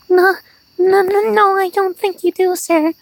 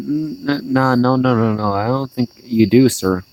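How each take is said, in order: First: It is said in a high, nervous, whiny voice. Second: It is said in a normal voice.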